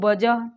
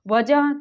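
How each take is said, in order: First: The word begins with a 'b' sound. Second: The word begins with a 'v' sound.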